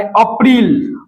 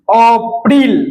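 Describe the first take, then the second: First: Said in the usual way. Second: "अप्रैल" split as अ, then प्रैल; teacher sounding out "अप्रैल" in two parts, अ-प्रैल; syllable breakdown. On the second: Shown as a demonstration. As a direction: pause inside "अप्रैल" before the प to show it. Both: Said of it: "प का pronunciation आ रहा है".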